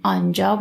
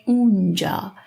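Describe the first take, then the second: First: Said in the usual way. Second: "اونجا" begun with an oo sound; spoken form. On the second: Shown as a demonstration. Teacher showing learners spoken Persian, "اونجا" in colloquial form with oo. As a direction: say "اونجا" colloquially, oo replacing long aa. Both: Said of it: "we pronounce as اونجا".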